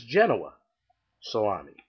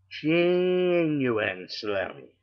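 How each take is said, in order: First: Genoa salami as "JEN-o-wa sa-LAH-mi"; East Coast pronunciation. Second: Genuine salami drawn out slowly, Genoa turned into "genuine"; West Coast mispronunciation. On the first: Storyteller shows East Coast usage, Genoa salami said as "JEN-o-wa". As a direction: say Genoa salami neatly, salami dropping away. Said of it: "If you're on the East Coast". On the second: Storyteller mocks West Coast deli talk, genuine salami slowly drawn out. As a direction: stretch genuine salami, flat "a" in salami. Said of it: "if you're here on the West Coast". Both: Shown as a demonstration.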